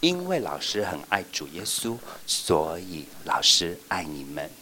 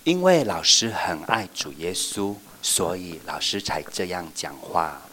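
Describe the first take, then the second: First: Slow, softer loving voice; gentle teacher assurance; tender. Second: Slow, gentle sincere voice; a touch of tender teacher. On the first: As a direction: say it with love. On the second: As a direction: tell them tenderly. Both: Shown as a demonstration. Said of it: "我们就要说".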